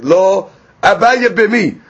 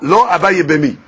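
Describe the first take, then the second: First: There is a pause after the first word. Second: It is said in one go without pausing. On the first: No; he does want to marry her. The speaker calls it wrong. "If you put a comma, like, or you pause, it sounds like she's saying, no" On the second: He does not want to marry her. The speaker calls it right. "don't pause after the law. ... Let it say it in one shot"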